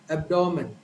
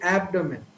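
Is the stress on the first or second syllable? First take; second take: Second; First. First: The stress is on the second syllable. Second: The stress is on the first syllable. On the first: This is how most Indian speakers say it. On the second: This is how a native speaker says it.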